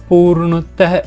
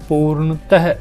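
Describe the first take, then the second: The two takes are said the same way.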